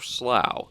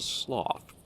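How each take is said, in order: First: The word rhymes with through. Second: The word does not rhyme with through. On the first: The speaker calls it right. "I think it's like through, so slough" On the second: The speaker calls it wrong. "Or is it sloth? No"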